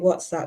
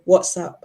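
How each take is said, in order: First: It is said in a standard accent. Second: It is said in a Nigerian accent. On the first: "instead of saying WhatsApp" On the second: "she'll say WhatsApp"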